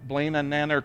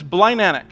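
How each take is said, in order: First: The name begins like 'Blaine' and ends 'Nanark'. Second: The name begins like 'Blind' and ends 'Anak'. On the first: The speaker calls it wrong. "I want to say like Blaine and Nanark or something like that" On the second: The speaker calls it right. "But it's Blind Anak"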